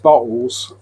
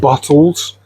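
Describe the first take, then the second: First: The middle t sound is dropped or glottal. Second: The middle t sound is clearly pronounced. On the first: The speaker calls it wrong. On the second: The speaker calls it right.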